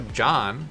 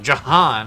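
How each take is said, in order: First: It is squeezed into a single syllable. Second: It has two syllables, stressing the second. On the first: "you could go John" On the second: "people really emphasize that second Jahan"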